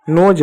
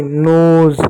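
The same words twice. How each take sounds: First: नोज said with a final j, "noj"; wrong take, नोज closing on a hard j; mispronounced word. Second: नोज said with a long buzzing final z, "noze"; loud, stretched नोज closing on z; corrected pronunciation. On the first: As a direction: end नोज on the j of jug. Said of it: "नोज नहीं". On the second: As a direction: draw out नोज and end on z. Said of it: "नोज नहीं, नोज". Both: Shown as a demonstration.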